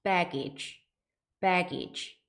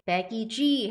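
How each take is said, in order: First: "baggage" with a light, released final G, no added vowel; relaxed ending. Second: "baggage" with a fully voiced final G, like 배기지; voiced ending. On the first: Teacher correcting learners' mistake, "baggage" with a softened, relaxed ending. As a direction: let the end of "baggage" go slack after a strong BAG. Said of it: "살짝 힘만 빼시면서 발음하셔야". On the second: Teacher imitating Korean learners' common mistake, "baggage" ending in a voiced "ji". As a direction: buzz the end of "baggage" into an extra "ji". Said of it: "유성음으로 발음하시는 거예요". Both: Shown as a demonstration.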